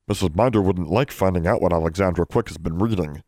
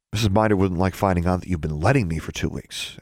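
First: Lightly voiced prim elf; agreeing elf. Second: Lightly voiced pointed retort; pointing out. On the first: Elf Poe backs Bran against Alexandra, mildly cautioning. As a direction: back up your friend with a mild warning. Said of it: "Poe agreed". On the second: Alexandra turns the elves' threat on them, pointedly. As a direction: turn their own warning back on them. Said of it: "Alexandra pointed out". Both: A narrator's reading.

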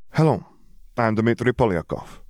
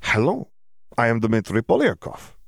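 First: Put-on higher voice with an Eastern European accent; accented self-introduction, practicing English; Slavic-accented greeting, pitched up; foreign student's accented English. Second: Put-on Eastern European accent, hello lifted high like a question; accented, word-by-word self-introduction; higher Slavic-accented voice, trying the greeting out; foreign student practicing accented English. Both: A narrator's reading. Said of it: "practicing his English or just very drunk".

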